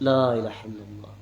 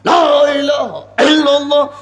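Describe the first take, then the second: First: It is said softly and calmly. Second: It is said loudly and forcefully. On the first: It is done in the commanded, humble way. The speaker calls it right. "জিকির করতে বলেছেন আল্লাহ রাসূল অনুচ্চ স্বরে" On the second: It follows one's own ideology, not the command. The speaker calls it wrong. "নিজের মতাদর্শ"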